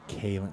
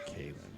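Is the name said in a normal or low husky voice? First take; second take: normal; low husky. First: It is said in a normal voice. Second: It is said in a low, husky voice.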